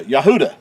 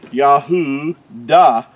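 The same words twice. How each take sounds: First: "Yahuda" run together as ya-HOO-da; joined-up pronunciation. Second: "Yahudah" broken into ya, hoo, dah; syllable-by-syllable pronunciation. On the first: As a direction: say "Yahuda" as one word, stressing the oo. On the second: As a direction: sound out "Yahudah" slowly in separate syllables. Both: Shown as a demonstration. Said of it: "is how you would pronounce".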